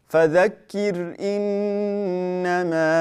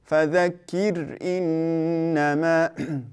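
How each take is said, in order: No difference in how they are said.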